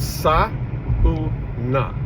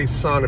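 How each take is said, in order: First: The 'a' and 'u' are separate vowel sounds. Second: The 'au' is one 'ah' vowel sound. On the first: The speaker calls it right. "S-A is sa, the U is u, and then na" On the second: The speaker calls it wrong. "the A U in a word makes it the ah sound"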